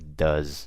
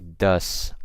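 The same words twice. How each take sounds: First: The word ends with a buzzing Z sound. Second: The word ends with a hissing S sound. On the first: The speaker calls it right. "I say does" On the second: The speaker calls it wrong. "I don't say does"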